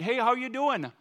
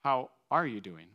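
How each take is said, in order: First: High, loud Minnesotan greeting; cheery hello in a big Minnesotan accent. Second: Unhurried, caring question at a normal pitch; warm, sincere asking. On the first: Preacher acting out a surface-nice greeting to someone, Minnesotan accent. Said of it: "in your best Minnesotan accent". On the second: Preacher showing Minnesota warm to someone met, sincere asking. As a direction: stop and really ask, smiling. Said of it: "actually be smiling and stopping and asking". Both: Acted.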